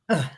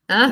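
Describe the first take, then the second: First: The pitch falls and lands on the sounds. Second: The pitch rises upward on the sounds. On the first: It sounds like a true, settled statement. "it has much more of that landing" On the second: It invites a response and feels like moving forward. "an upward inflection"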